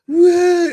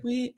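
First: Loud, high mock wail; imitated hysterical bawling. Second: Small, high, soft mock cry; a tiny imitation whimper; imitated little whimper. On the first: Imitating a small child bawling at a voice, hysterical mock wail. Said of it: "bawl, like, hysterically". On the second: Imitating a small child barely crying, soft mock whimper. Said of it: "It wasn't just like".

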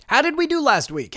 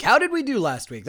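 First: A touch higher, voicing an imagined listener; lightly voiced fan asking; mock listener question. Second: Said in the usual way. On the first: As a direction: ask it as the curious listener. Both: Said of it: "I can hear your question".

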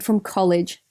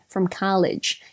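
First: Said in the usual way. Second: Drawn-out American "college"; American accent. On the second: Acted. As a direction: say "college" slowly with an open American "ah". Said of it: "continue reading in my best American accent".

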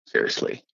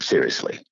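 First: Seriously breathed as a soft unvoiced whisper; whispered repeat. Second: Said in the usual way. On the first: Real, not acted. Grateful worker to hosts, whispered Seriously.

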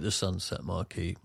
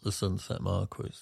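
First: Marquis as it is called, mar-KEE. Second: Marquis as it is spelt, MAR-kwiss. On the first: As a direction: say Marquis ending in "key", S silent. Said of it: "they do call it". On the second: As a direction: say Marquis with "kw" and a final S. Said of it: "even though it's spelt". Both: Shown as a demonstration.

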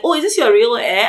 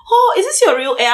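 First: Lightly imitated curiosity; mildly curious coworker. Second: High-pitched imitated astonishment; mock amazement. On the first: Workmates asking about her locks, mildly curious. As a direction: ask with a touch of mock wonder. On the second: Workmates seeing her new braids, mock amazed. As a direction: gush it high, like an amazed coworker.

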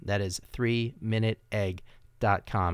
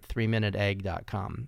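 First: Three minute egg dot com said slowly, each word set apart; slow, spelled-out repeat. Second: Said in the usual way. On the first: Shown as a demonstration. Host repeating his website address slowly for listeners. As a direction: say it again slowly so they catch the address.

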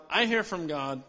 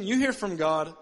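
First: "I" set firmly against "you"; contrastive I. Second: "you hear from God" as the other side's claim; contrastive YOU. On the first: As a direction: stress on "I", the rest falling away. Contrasting his claim with boss's. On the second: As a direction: set "you" against "I", a little louder. Contrasting boss's claim with his own. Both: Retold or imitated.

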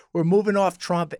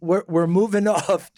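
First: Said in the usual way. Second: Laughing. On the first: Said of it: "restates it without laughing". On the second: Real, not acted. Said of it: "laughs mid-phrase".

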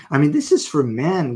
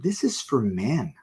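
First: This is for men, pressed harder and louder; emphatic repeat. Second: Said in the usual way. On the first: Real, not acted. Preacher repeating his point to the men, emphatic. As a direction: lean in hard on is.

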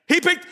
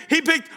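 The two takes are said the same way.

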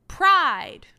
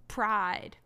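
First: Loud mock-booming Pride; a hammed-up, loud, booming Pride. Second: Said in the usual way. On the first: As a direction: boom out Pride. like a lecturer, overdone. Repeating Dom's word mockingly.

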